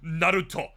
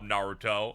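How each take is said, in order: First: The name has a Japanese-style pronunciation. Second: The name has an English-style pronunciation. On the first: "the one guy in there going" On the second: "everyone's like"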